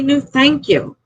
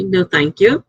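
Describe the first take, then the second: First: "No, thank you." pitched high and exasperated; a fed-up high "No, thank you.". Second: "No, thank you." said plainly and politely at normal pitch; a calm, courteous "No, thank you.". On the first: Explaining to a rude customer how to decline, exasperated and high. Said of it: "Just say". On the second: Showing viewers how she politely turns offers down, calm and courteous. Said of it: "I know how to say politely". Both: Shown as a demonstration.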